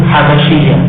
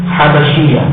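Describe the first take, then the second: No difference in how they are said.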